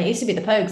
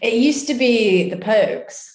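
First: It is said in a plain accent. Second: It is said in a posh accent.

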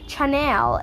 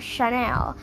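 First: The name is sounded out the way it's spelled. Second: The name is sounded differently from its spelling. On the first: The speaker calls it right. "C-H-A-N-E-L is Chanel" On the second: The speaker calls it wrong. "It's not Chanel"

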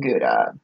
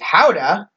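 First: The word starts with a hard G sound. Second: The word starts with a breathy H-like sound. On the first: The speaker calls it wrong. "she lovingly shamed us all for saying Gouda" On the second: The speaker calls it right. "how the Dutch pronounce it is Houda"

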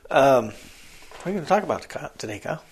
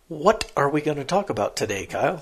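First: The words are run together and mumbled. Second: Each word is clearly and carefully enunciated. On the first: The speaker calls it wrong. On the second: The speaker calls it right.

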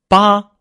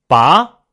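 First: The pitch stays high and level. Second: The pitch rises from mid to high. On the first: "横" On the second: "扬"

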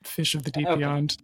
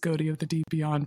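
First: The first word sounds like fish. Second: The first word sounds like goaty. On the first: The name is read as intended. "but you Fish of the Deep Beyond" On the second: The name is read as it is spelled. "the text of it is Goaty of the Deep Beyond"

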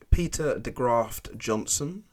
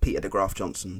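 First: It is said carefully, with clear T sounds. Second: It is said fast, with the T sounds dropped.

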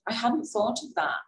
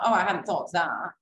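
First: It sounds genuinely interested and warm. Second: It sounds insincere and dismissive.

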